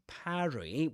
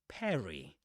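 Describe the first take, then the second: First: The first vowel is the open vowel of cat. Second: The first vowel is the vowel of dress. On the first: "with that a sound, just like in trap or in cat. That's British English" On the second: "in American English, it's pronounced with an e sound, just like in dress"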